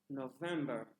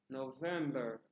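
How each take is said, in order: No difference in how they are said.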